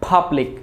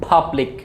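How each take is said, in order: The two takes are said the same way.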